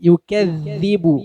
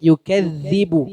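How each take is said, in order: No difference in how they are said.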